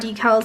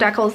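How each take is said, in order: First: Decal is said the non-Canadian way. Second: Decal is said the Canadian way.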